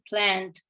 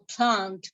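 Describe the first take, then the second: First: It is said in an American accent. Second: It is said in a British accent. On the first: "they would say plant" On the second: "which is an English word"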